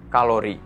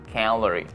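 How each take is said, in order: First: It is said with Indonesian vowels and stress. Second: It is said with English vowels and stress. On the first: The speaker calls it wrong. "bukan kalori" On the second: The speaker calls it right. "itu dibaca calorie"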